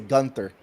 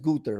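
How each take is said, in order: First: The name is said the American English way. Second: The name is said the way people overseas say it. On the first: This is how English speakers grew up saying it. The speaker calls it wrong. "I used to say Gunther, right? Because that's the the English language that we brought up" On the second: This is how people overseas say it. The speaker calls it right. "We don't know what the overseas how they say it, but it's Gunther"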